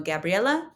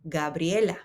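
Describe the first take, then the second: First: The name is said with English sounds. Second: The name is said with Spanish sounds. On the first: The speaker calls it wrong. "No Gabriela" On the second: The speaker calls it right. "This is Gabriela"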